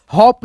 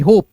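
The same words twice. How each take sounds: First: हॉप with a short open o as in hop; the wrong vowel: हॉप with a short open o; wrong reading. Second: होप with a long closed o as in hope; the correct vowel: होप with a long closed o; right reading. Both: Shown as a demonstration. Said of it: "हॉप नहीं होप".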